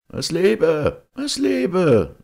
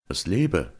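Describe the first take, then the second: First: High, loud call like many voices; echoing crowd cheer. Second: Mildly raised, rousing cheer; strong-voiced toast. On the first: Many voices answer from the cave depths, cheering loudly. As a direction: shout it far up high, drawn like an echo. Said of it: "das Geräusch vieler Stimmen". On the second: Georg toasts the knight's family, in a strong voice. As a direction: round off a toast with some force. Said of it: "mit starker Stimme gerufen". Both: A narrator's reading.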